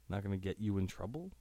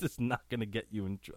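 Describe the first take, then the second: First: TROUBLE lifted in a questioning rise; puzzled question. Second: Said in the usual way. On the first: Real, not acted. Host rereads a confusing backstory line, puzzled question. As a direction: read it back quickly, voice climbing on TROUBLE in doubt.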